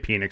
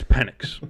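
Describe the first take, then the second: First: The name sounds like the word 'penis'. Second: The name does not sound like 'penis'. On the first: The speaker calls it wrong. "Everybody wants to say Penix because it sounds like penis" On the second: The speaker calls it right. "but it's Penix"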